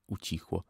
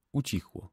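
First: Quiet echo. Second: Said in the usual way. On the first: Shown as a demonstration. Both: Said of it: "repeated fading".

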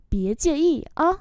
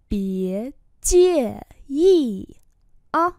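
First: Said in the usual way. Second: Slow syllables, brief pause before "á"; slow model with a gap before final "á". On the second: Shown as a demonstration. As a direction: draw out "Bía chia y", stop, then "á". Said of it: "hãy ngừng lại một chút".

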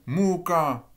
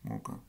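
First: Muka with mu- and -ka both stressed; double-accented muka, strong mu-, strong -ka; stress on both syllables. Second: Muka soft, both syllables unaccented; evenly weak muka, much softer; no stress. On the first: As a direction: punch each syllable of muka equally, drawn out. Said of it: "je mets un accent partout". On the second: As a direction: drop all emphasis from muka, say it quietly. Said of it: "comme ceci". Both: Shown as a demonstration.

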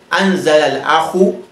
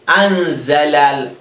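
First: Said in the usual way. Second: Anzala drawn out slowly, syllable by syllable; slow model word. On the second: Shown as a demonstration. Teacher slowly models anzala for students. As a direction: spell out anzala slowly for the class. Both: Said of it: "And here we say".

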